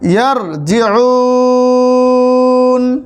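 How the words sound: The vowel is drawn out, then the voice stops. The reader takes a breath and pauses here. "তিন আলিফ পরিমাণ টেনে এখানে থামতে হবে"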